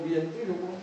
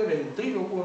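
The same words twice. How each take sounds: First: "ventrílocuo" said as vien-TRÍ-locuo; wrong diphthongised form. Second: Said in the usual way. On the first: Shown as a demonstration. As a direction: put an ie in the first syllable of "ventrílocuo". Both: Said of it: "no decimos ventrílocuo".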